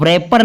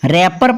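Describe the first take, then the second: First: The W sound is pronounced. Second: The W sound is silent. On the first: The speaker calls it wrong. "इसको रैपर नहीं पढ़ना" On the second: The speaker calls it right. "रैपर पढ़ना है"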